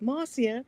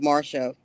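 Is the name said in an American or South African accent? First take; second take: South African; American. First: The name is said in a South African accent. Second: The name is said in an American accent. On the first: This is how another person said the name. "I just loved that Marcia" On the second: This is how the name's owner says it. "which is my American pronunciation"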